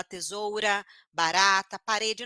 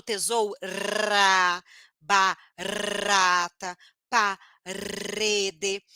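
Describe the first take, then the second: First: Said in the usual way. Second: TESOURA, BARATA, PAREDE slowly with a long rolled R; exaggerated trilled R. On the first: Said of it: "produz o som do R fraco corretamente". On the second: Shown as a demonstration. Teacher showing what one needn't say, trilled R. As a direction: roll the R hard in every word. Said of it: "Não necessariamente eu preciso vibrar a língua".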